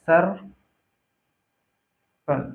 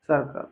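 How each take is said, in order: First: Split into syllables. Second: Said in the usual way. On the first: Shown as a demonstration. Teacher spelling out circle for students, syllable by syllable. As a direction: break the word into सर, pause, कल.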